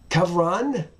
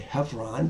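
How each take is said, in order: First: It begins with a throaty kh sound. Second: It begins with a plain h sound. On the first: The speaker calls it right. "apparently it's a het there" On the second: The speaker calls it wrong. "We want to say Hebron"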